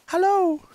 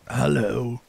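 First: It is said in a child's voice. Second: It is said in an old man's voice.

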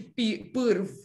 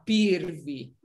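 First: The name ends on a bare consonant. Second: The name ends with an added vowel sound. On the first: This is how the speaker's own people say the name. "não é um V como da gente" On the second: This is how Brazilians say the name. "eles falam Cristina Pirvi"

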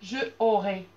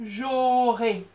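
First: The vowel of je is pronounced before aurai. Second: The vowel of je is dropped before aurai. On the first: The speaker calls it wrong. "Je ne vais pas pouvoir dire « je aurai »" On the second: The speaker calls it right. "je vais dire directement « j'aurai »"

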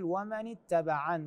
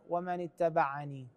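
First: The phrase ends on a bare n sound. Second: The phrase ends with an added ee vowel. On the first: The speaker calls it right. "فنقول ومن اتبعن" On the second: The speaker calls it wrong. "وليس ومن اتبعني"

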